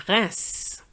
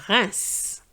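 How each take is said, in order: First: It is said with a French pronunciation. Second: The same.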